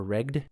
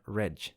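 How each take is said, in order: First: Regd with a hard g, then d; hard g pronunciation. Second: Reg with a soft g, like "redge"; soft g pronunciation. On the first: Reader offering another reading of the name, Regd with hard g. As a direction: say Regd to rhyme with "begged". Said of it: "I'm gonna go with Regd". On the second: Reader trying a name from the book, Reg with soft g. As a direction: say Reg ending in a j sound. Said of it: "Or Regd?". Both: Real, not acted.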